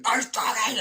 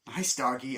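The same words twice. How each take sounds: First: Nice doggy squeaked very high and loud; panicked squeak. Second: Said in the usual way. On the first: Retold or imitated. Panicked at the dog.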